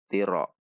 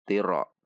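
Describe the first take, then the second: First: It is said fast and the double r is lost. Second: The same.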